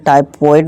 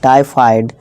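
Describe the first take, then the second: First: The second syllable sounds like 'foid'. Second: The second syllable sounds like 'fide'. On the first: The speaker calls it wrong. "इसे टाइफॉइड नहीं" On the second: The speaker calls it right. "नहीं टाइफाइड"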